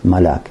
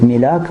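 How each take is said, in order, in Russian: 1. Первый гласный звучит как 'a'. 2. Первый гласный звучит как 'i'. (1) "можно сказать маляк" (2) "Можно сказать миляк"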